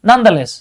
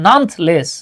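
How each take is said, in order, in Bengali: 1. 'th' আর 'less'-এর মাঝে একটা ছোট স্বরধ্বনি শোনা যায়। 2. 'th' আর 'less'-এর মাঝে কোনো স্বরধ্বনি শোনা যায় না।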